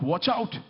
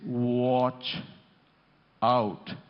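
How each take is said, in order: First: It is shouted quickly. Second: It is drawn out slowly.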